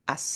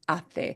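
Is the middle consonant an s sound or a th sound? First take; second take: s sound; th sound. First: The middle consonant is an s sound. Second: The middle consonant is a th sound. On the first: "they don't pronounce ace like ace" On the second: "It's ate"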